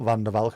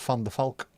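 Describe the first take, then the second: First: The name starts with a voiced V sound. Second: The name starts with a voiceless F sound. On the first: The speaker calls it wrong. "is not" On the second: The speaker calls it right. "V always pronounced as an F in Dutch"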